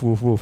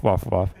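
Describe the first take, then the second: First: "woof, woof" with an oo vowel, as in "wood"; "woof" sounded wuf, the English dog sound; English bark. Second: "woof, woof" with an open ah vowel, like "waf"; "woof" sounded wahf, the Dutch dog sound; Dutch bark. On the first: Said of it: "English dogs do woof". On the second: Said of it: "Dutch dogs who do woof". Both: Shown as a demonstration.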